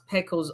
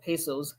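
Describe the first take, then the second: First: The middle consonant is a K sound. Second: The middle consonant is an S sound. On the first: "is the C pronounced as K" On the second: "is the C pronounced as S?"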